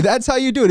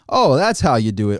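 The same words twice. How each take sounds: First: High, loud sarcastic disbelief; incredulous mock question. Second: Dry mock agreement. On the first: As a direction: throw the question back in mock shock. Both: Sarcastic reply to wage advice.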